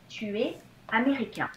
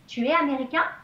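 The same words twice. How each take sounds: First: The voice falls at the end. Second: The voice rises at the end.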